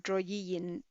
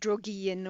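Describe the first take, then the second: First: The middle particle starts with a y sound. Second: The middle particle starts with a g sound. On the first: This is the grammatically correct form. The speaker calls it right. "yiyin is more grammatically correct" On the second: This is the simplified colloquial form. The speaker calls it wrong. "in most colloquial texts you will find it as gi"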